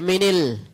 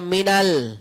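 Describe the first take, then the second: First: Min links to the next word with an i vowel. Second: Min links to the next word with an a vowel. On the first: The speaker calls it wrong. "Tidak boleh dibaca minil" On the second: The speaker calls it right. "Min kalau ketemu al dibaca minal"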